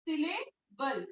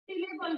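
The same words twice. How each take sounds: First: syllable softly as सिले, बल with a pause; slow, two-part syllable; split into syllables. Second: Said in the usual way. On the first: Shown as a demonstration. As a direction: break syllable before बल. Teacher breaks up the term.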